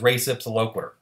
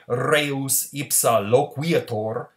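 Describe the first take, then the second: First: It is said with an American English pronunciation. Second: It is said with a Church Latin pronunciation. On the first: The speaker calls it wrong. "The way Americans say it" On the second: The speaker calls it right. "is the way you really say it if you're in the Vatican"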